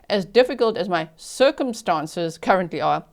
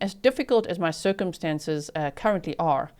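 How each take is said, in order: First: It is spoken in a South African accent. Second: It is spoken in an American accent. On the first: The speaker calls it right. "I will say it in my South African accent" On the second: The speaker calls it wrong. "I just said that in an American accent"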